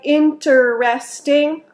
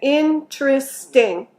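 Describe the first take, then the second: First: The word is said with four syllables. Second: The word is said with three syllables. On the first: The speaker calls it wrong. "We usually don't say interesting" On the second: The speaker calls it right. "We say interesting. That's three syllables"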